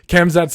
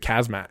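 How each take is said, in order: First: The name begins with 'Kham' and ends 'zat'. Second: The name begins with 'Kaz' and ends 'mat'. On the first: The speaker calls it right. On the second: The speaker calls it wrong.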